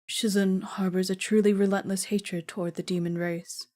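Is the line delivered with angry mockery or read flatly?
flat. It is read plainly, without acted emotion. The speaker calls it wrong. "I need to act that properly"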